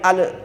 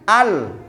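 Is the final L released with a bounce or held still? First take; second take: bounce; held. First: The final L is released with a bounce. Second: The final L is held without bouncing. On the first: The speaker calls it wrong. "Kalau di depan punya potensi balik" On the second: The speaker calls it right. "Letakkan di samping lidah jenengan"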